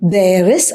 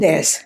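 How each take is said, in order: First: It is said as two full words. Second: It is shortened into one syllable.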